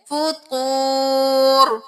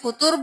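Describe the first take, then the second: First: The vowel is held long. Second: The vowel is cut short. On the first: The speaker calls it right. "वाव साकिन है तो एक अलिफ के बराबर खींचे" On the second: The speaker calls it wrong. "फुतूर भी नहीं करेंगे"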